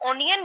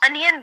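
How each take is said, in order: First: The word starts with an 'oh' vowel. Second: The word starts with an 'uh' vowel. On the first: The speaker calls it wrong. "आप इसको ओनियन नहीं बोलते" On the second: The speaker calls it right. "आप इसको अनियन बोलते हैं"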